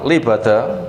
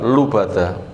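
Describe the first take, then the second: First: The first vowel is an 'i' sound. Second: The first vowel is a 'u' sound. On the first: "Bi kasril lam" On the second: "wa zamiha"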